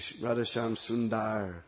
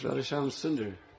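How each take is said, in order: First: The A vowel is drawn out long. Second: The A vowel is kept short. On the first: The speaker calls it wrong. "I hear people say" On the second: The speaker calls it right. "It's a short A"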